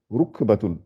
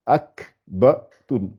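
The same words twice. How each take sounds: First: Said in the usual way. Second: "ruakbatun" very slowly, a pause between syllables; syllables separated. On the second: Shown as a demonstration. Teacher separating the letters before joining them, slow and segmented. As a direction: break "ruakbatun" into its separate sounds. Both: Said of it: "séparer les lettres et de les assembler".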